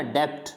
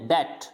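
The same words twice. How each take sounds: First: डेब्ट with an audible B before T; wrong pronunciation. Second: डेट as "det", straight from vowel to T; silent B. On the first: Teacher shows students the mistake, डेब्ट with B sounded. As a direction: say डेब्ट as "debt" with the B pronounced. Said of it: "ऐसे नहीं कहना डेब्ट". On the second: Teacher models it for students, डेट with B silent. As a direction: leave any B out of डेट. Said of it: "बी को pronounce करना ही नहीं है". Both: Shown as a demonstration.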